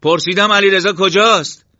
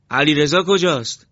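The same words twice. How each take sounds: First: Full shouted demand, very high; loud, high, frantic shout; raised voice. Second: Raised, higher anxious question; loud, worried, pressing question; urgent demand. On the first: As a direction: yell the question, demanding an answer. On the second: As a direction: demand it loudly, short of a shout. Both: Acted. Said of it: "صدایش را بالا برد".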